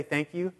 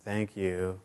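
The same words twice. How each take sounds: First: Said in the usual way. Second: Low, soft, grudging thank-you; rude tone. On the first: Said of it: "but then you could say it, like, with a tone". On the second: Shown as a demonstration. Ungrateful person thanking for socks, rudely unimpressed. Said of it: "with a tone where it's, like, just rude".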